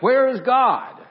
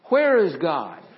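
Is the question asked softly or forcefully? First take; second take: forcefully; softly. First: It is asked in a stronger, more forceful voice. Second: It is asked in a mild, normal voice.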